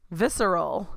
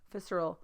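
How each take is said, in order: First: "Visceral" read out slowly with a questioning rise at the end; word read aloud. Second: "Visceral" dropped to a soft, falling murmur; word read quietly. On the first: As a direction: sound out "Visceral" like you're checking it, pitch rising. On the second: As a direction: settle "Visceral" quietly, pitch falling as if confirmed. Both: Shown as a demonstration. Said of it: "I'm looking up a word".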